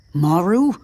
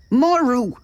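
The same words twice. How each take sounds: First: Maru rising, as if asking; said like a question. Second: Maru high and falling, a cried-out answer; shouted. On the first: Man calls "Maru" uncertainly, as a rising question. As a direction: lift the pitch through "Maru" into a question. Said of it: "He said it like a question". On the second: Exasperated man shouts "Maru" as his answer. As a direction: cry out "Maru" high, dropping at the end. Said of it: "he shouted". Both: A narrator's reading.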